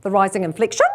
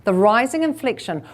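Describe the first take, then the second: First: "rising inflection" swooping up at the end like a question; statement ending upward on "inflection". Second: Said in the usual way. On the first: Shown as a demonstration. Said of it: "please ditch the rising inflection".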